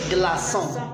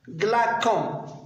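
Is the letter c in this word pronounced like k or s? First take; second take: s; k. First: The c is pronounced like a soft s. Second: The c is pronounced like a hard k. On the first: The speaker calls it right. "on prononce des glaçons" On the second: The speaker calls it wrong. "pour ne pas prononcer glacon"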